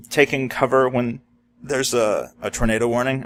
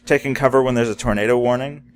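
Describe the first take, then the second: First: Words broken by hiccups; hiccuping. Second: Said in the usual way. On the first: Real, not acted. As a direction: speak through the hiccups. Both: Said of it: "I'm sorry, I'm hiccuping".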